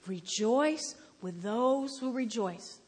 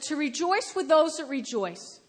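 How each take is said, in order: First: Slow, drawn-out scripture quote; labored recitation. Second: Said in the usual way. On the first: Acted. Scripture read on a horrible day, labored recitation. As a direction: stretch out "Rejoice" and "those".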